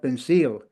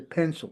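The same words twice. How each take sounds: First: The last syllable has a full, stressed vowel. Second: The last syllable has a short schwa vowel. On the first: The speaker calls it wrong. "We don't have pencil" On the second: The speaker calls it right. "We say pencil"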